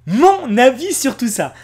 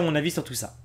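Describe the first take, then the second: First: Slow, loud, higher-pitched "Mon avis sur tout ça"; emphatic announcement. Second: Said in the usual way. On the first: Real, not acted. Repeats it as emphatic headline.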